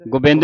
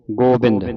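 First: ਗੋਬਿੰਦ said as gubend, with a short u and an e; wrong pronunciation. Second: ਗੋਬਿੰਦ with a long open o from the hora, gobind; teacher's correct take, ਗੋਬਿੰਦ with the full o sound; correct pronunciation. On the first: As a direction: demonstrate the mistake: ਗੋਬਿੰਦ with the ho vowel cut short. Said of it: "ਗੋਬਿੰਦ ਨਹੀਂ ਪੜਨਾ". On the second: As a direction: model it clearly, ਗੋਬਿੰਦ as go-bind. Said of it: "ਗੱਗੇ ਹੋੜਾ". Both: Shown as a demonstration.

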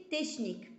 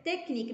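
First: "تشنيك" with sh in place of k; wrong SH pronunciation. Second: "تكنيك" with CH as a hard k; correct K pronunciation. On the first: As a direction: misread "تشنيك" as tesh-nik. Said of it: "ماشي تشنيك". ("تشنيك" بالشين، نطق غالط) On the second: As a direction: say "تكنيك" as tek-nik. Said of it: "كتقرا ك". ("تكنيك" بالكاف، ماشي بالشين) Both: Shown as a demonstration.

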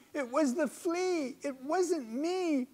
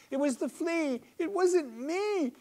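First: High, drawn out desperate bug plea; helpless screeching. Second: A tiny creature screeching for its life; helpless screeching. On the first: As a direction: screech again, more desperate. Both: A narrator's reading. Bedbug pleading innocence from the maid's fingers, screeching. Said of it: "He screeches this out helplessly".

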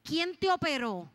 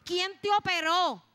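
First: Startled specialist, drawn-out question. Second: Loud, high, drawn-out startled question; startled outcry. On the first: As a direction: ask slowly, raised, as if shaken. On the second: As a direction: demand it again in astonishment, at full voice. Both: Retold or imitated. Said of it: "quitó la máquina asustada y me dice".

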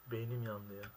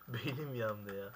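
First: Said in the usual way. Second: Slow complaint broken by laughter; laughing. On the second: Real, not acted. Gamer laughing at his own failure, saying it slowly.

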